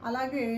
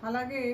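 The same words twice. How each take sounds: The two takes are said the same way.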